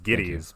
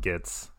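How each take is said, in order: First: The name is said with two syllables. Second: The name is said with one syllable. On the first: The speaker calls it right. "It's Giddies" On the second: The speaker calls it wrong. "they mispronounce his name all the time"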